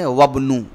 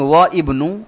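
First: Wa runs straight into bnu without a stop. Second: A glottal stop separates wa from ibnu. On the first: The speaker calls it right. "we have to say wabnu" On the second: The speaker calls it wrong. "instead of saying wa ibnu"

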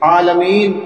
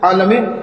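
First: The long vowel before the final n is held. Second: The long vowel before the final n is clipped. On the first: The speaker calls it right. "کم سے کم ایک واو یا ایک یا کی ادائیگی ضروری ہے" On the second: The speaker calls it wrong. "یعنی یہ یا کی ادائیگی نہیں ہوتی"

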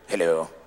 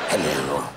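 First: It is said in a plain American accent. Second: It is said in a theatrical English accent.

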